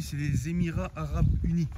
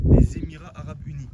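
First: Said in the usual way. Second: Loud emphasis. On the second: Real, not acted. Repeats the country name, louder.

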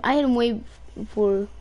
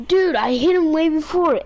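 First: Said in the usual way. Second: High, loud angry protest; raging gamer. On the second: Real, not acted. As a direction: shout your claim at him. Repeated kill argument, louder.

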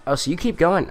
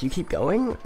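First: Surprised, pitch jumping up. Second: Replaying the surprised question; mock surprised. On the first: Real, not acted. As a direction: catch it in disbelief. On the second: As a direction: imitate your own disbelief. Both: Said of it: "I thought it was like".

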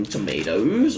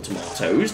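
First: "tomatoes" said American-style, tuh-MAY-dohz. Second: "tomatoes" said British-style, tuh-MAH-tohz. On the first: Gamer offering one way to say it, "tomatoes" as tuh-MAY-dohz. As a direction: say "tomatoes" with a long AY in the middle. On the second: Gamer offering the other way to say it, "tomatoes" as tuh-MAH-tohz. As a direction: say "tomatoes" with a long AH in the middle. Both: Shown as a demonstration. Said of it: "depending on what you wanna say".

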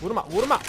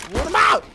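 First: Said in the usual way. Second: "vurma!" yelled high and loud; shouted vurma. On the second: Real, not acted. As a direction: hit "vurma!" as a sudden shout. ("vurma!" yüksek ve bağırarak)

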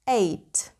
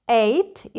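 First: "eight" said with the "ay" vowel, like "day"; "eight" rhymes with "May" and "day"; correct pronunciation of eight. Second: Eight said as "ait", like the word ate in "I"; the vowel of "eight" said like "eye"; "eight" pronounced "ait", rhyming with "kite"; wrong pronunciation of eight. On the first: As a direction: say "eight" as "ayt", not "ait". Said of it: "that's wrong. It's pronounced eight". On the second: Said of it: "Is that right?". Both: Shown as a demonstration.

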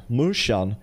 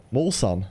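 First: Morsan said "mushan", closed u-like vowel with rs blended to sh; morshan. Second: Morsan with a round o, as in "mor"; morsan, open o, separate r and s. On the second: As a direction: say morsan with an open "o", r and s kept apart. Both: Shown as a demonstration. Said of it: "Säger ni morsan eller morsan?".

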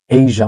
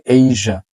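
First: এশিয়া said "e-si-a", three syllables; local pronunciation. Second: এশিয়া said "AY-zha", two syllables; correct pronunciation. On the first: Teacher quoting how we usually say it, এশিয়া as e-si-a. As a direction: sound si-a separately in এশিয়া. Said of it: "আমরা বলি". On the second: Teacher correcting learners, এশিয়া as ay-zha. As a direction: buzz a zh in the middle of এশিয়া. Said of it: "but হচ্ছে". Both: Shown as a demonstration.

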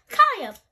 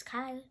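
First: High, very loud call; yelling. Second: Softer, disappointed sigh of a name. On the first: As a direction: holler the child's name. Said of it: "Mom yells". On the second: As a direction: gently let down, addressing a child. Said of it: "Dad sighs in disappointment". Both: Acted.

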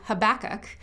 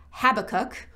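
First: Habakkuk said huh-BACK-uk; second-syllable stress on Habakkuk. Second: Habakkuk said HAB-uh-kuk, stress up front; first-syllable stress on Habakkuk. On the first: Preacher giving the alternative some people use, Habakkuk as huh-BACK-uk. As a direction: put the weight on the middle syllable of Habakkuk. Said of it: "as it's pronounced by some". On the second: Preacher naming the prophet's book the common way, Habakkuk as HAB-uh-kuk. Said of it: "we sometimes call Habakkuk". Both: Shown as a demonstration.

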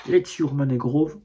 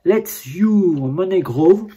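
First: Said in the usual way. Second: Reads the English slogan slowly, word by word; slow careful reading. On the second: Real, not acted. Reading the packaging slogan aloud to viewers, slow and careful. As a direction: spell out the slogan carefully, a bit louder. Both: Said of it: "mon anglais n'est pas au top".

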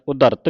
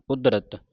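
First: ਉਦਰਤ said "u-dart", vowel before the r; ਉਦਰਤ with r closing the syllable; wrong syllable split. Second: ਉਦਰਤ said "ud-rat", d running into r; ਉਦਰਤ as a falling "ud-rat"; joined d and r. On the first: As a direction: run ਉਦਰਤ as "u-dart", as the mistake. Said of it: "ਉਦਰਤ ਨਹੀਂ ਪੜ੍ਹਨਾ ਇਹਨੂੰ". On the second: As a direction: close the first syllable of ਉਦਰਤ on d. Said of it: "ਉਦਰਤ ਪੜ੍ਹਨਾ". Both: Shown as a demonstration.

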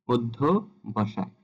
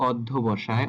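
First: "অধ্যবসায়" drawn out slowly, starting on o; সঠিক উচ্চারণ. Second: "অধ্যবসায়" with an open অ at the start; ভুল উচ্চারণ. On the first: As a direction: slowly model "অধ্যবসায়" with a closed ও. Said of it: "সঠিক উচ্চারণটা হবে ও দিয়ে". ("অধ্যবসায়" ধীরে, শুরুতে ও ধ্বনি) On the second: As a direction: begin "অধ্যবসায়" on open aw, not o. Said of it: "অ দিয়ে পড়ি". ("অধ্যবসায়"-এর শুরুতে খোলা অ) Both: Shown as a demonstration.

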